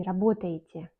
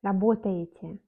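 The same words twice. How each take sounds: First: "работаете" with the unstressed e turned to i; reduced E. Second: "работаете" with a full e near the end, as written; spelling pronunciation. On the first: Teacher showing how unaccented E sounds, reduced E. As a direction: say "работаете" as rabotayitye. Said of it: "on prononce comme I". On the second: Teacher showing the written E, spelling pronunciation. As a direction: say "работаете" keeping each written e. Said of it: "On écrit Е". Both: Shown as a demonstration.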